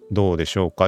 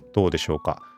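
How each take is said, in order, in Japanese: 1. ノイズキャンセリングをオンにして処理された音声です。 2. ノイズキャンセリングをオフにして処理された音声です。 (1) "今ボイスチューンオンにしました。" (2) "今ノイキャン外しました。"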